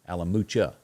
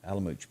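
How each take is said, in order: First: The name ends with a final vowel sound. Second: The name ends without a final vowel sound. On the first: The speaker calls it right. "Pronounce the A on the end" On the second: The speaker calls it wrong. "I have been saying it wrong"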